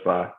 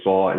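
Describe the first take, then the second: First: The vowel is light and open. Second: The vowel is heavy and rounded. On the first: The speaker calls it wrong. "instead of sa" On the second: The speaker calls it right. "You'll say saw"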